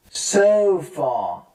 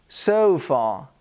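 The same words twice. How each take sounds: First: "sofa" stretched as "sooo-fuhh"; drawn-out teaching model of "sofa"; exaggerated schwa. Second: "sofa" as "SO-fuh"; careful "sofa" with weak final vowel; schwa demo. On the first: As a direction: linger on "sofa", ending in "uh". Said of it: "I'm trying to exaggerate". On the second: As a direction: neutral "uh" ending on "sofa". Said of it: "schwa sound with unstressed weak". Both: Shown as a demonstration.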